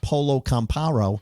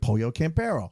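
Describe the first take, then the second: First: The name is pronounced in an anglicized way. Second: The name is pronounced the Spanish way. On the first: The speaker calls it wrong. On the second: The speaker calls it right. "I didn't say it wrong"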